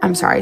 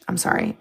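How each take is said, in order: First: Said in the usual way. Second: Whispered "I'm sorry", voiceless and soft; whispered apology after laughing; hushed sorry. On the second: Real, not acted. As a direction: shush yourself and whisper it.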